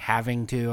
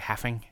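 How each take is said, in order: First: Both words are said fully and clearly. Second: The words are squeezed into a shortened form. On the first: "Instead of saying having to" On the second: "I say having. that's the Ohio dialect"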